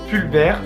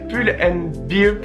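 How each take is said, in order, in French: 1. Le nom est collé en deux syllabes. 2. Chaque mot du nom est dit séparément. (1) "Moi, je prononce Pulver, c'est horrible" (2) "pour vraiment être assez bien dans la prononciation"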